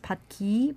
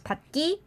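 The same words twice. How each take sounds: First: The second syllable starts with a plain g. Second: The second syllable starts with a tense kk. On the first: The speaker calls it wrong. "you might think that you pronounce it as 받기" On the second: The speaker calls it right. "it's pronounced as 받기 because there's a last consonant in front of 기"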